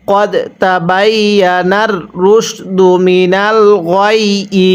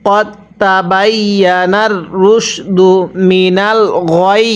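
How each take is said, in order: First: Slow recitation with the final ই of গয়ই sounded, no pause; a teacher reciting গয়ই in one joined breath, keeping the kasra. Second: Slow recitation ending on a clipped গয় with no final vowel; stopping form. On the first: তাজবীদ অনুযায়ী গয়ই উচ্চারণ. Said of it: "কীভাবে শিখবো তাহলে?". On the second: A teacher shows students the waqf stop, slow recitation. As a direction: drop the kasra and stop firmly on গয়. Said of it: "এখন ওয়াকফ করলে কীভাবে পড়ব?". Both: Shown as a demonstration.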